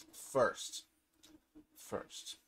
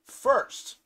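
First: Hushed, breathless whisper. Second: Called out a bit higher and louder; announced loud, then the voice drops; announcing. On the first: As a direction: whisper it as a secret. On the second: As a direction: proclaim it like a big reveal. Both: Acted. Building suspense before crafting.

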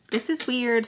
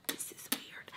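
First: Said in the usual way. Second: Very soft whisper; whispered aside. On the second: Retold or imitated. Telling herself how weird it feels, whispered. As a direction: whisper it as if to yourself. Muttered aside, then said aloud.

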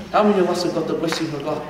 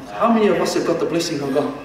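First: "many" lifted, fast repeat; stress on many. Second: "How" lifted first, brisk question; stress on how. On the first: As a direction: lean on "many". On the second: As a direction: open strong on "How". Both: Shown as a demonstration.

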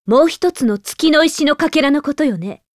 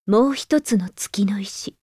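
First: Said in the usual way. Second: Slow whispered echo to herself; hushed musing whisper. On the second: Acted. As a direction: repeat it under your breath, slowly. Repeats phrase under her breath.

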